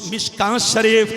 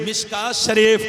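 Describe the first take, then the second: No difference in how they are said.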